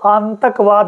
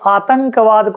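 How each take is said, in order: First: The nasal sound comes before the t. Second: The nasal sound comes after the t. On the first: The speaker calls it wrong. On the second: The speaker calls it right.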